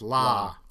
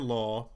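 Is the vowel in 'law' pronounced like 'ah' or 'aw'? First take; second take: ah; aw. First: The vowel is an open, unrounded 'ah' sound. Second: The vowel is a rounded 'aw' sound. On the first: "It's la. As in, you know, la, a note to follow so" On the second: "They don't have the aw diphthong. They don't say law"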